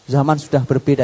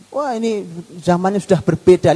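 First: Said in the usual way. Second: Lightly voiced dismissive "zaman sudah berbeda" speaker; higher mock voice of someone brushing off the past; mild mock of a modern skeptic; mocking quote. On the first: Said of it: "hati-hati kalimat itu". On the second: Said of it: "Lihat kalimat zaman berbeda itu".

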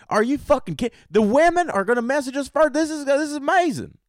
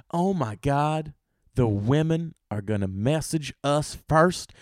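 First: Very high, hammed-up squeal of disbelief; mock ecstatic outburst, pitched way up; over-the-top excitement. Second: Slow, mildly amazed realization; acted wonder, drawn out; awed excitement. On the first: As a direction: lose it over the amazing news. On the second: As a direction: take in the big news slowly. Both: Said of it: "Women were excited".

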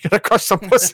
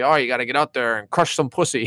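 First: High, laughing dad impression; hyped-up dad voice. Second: Said in the usual way. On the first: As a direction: egg him on like a rowdy father. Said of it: "He keeps telling him". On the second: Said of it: "and then he's like".

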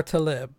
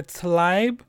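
First: Talib with a short "lib" ending; alternative pronunciation. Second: Tlaib said slowly as one candidate pronunciation; alternative pronunciation. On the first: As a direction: say Talib as "ta-LIB", the other candidate. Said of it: "It's either Tlaib". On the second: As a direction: say Tlaib with the vowels as spelt, "ai". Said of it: "pronouncing her last name correctly. It's either". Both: Shown as a demonstration.

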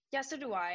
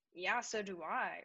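First: Louder, higher, snappy comeback; snippy retort. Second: Slow, drawn-out retelling of the text; slow drawn read. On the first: [name] voicing Caitlin's text as a snippy comeback, louder. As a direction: snap it back at her. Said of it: "And this is how I read it". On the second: [name] rereading Caitlin's reply slowly. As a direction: stretch it out slowly. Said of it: "And I was like". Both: Retold or imitated.

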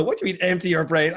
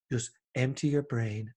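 First: Baffled, louder retort to "empty your brain"; exasperated. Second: Slow, soft meditation teacher; guided meditation voice. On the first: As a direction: push back in disbelief at "empty your brain". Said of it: "And you go". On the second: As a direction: calmly tell the listener to empty their mind. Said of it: "these guys going". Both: Retold or imitated.

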